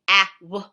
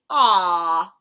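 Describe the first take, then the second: First: It is split into two separate sounds. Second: It is said as one single sound. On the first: The speaker calls it wrong. "you don't say ah w in a word" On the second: The speaker calls it right. "You say aw in the word"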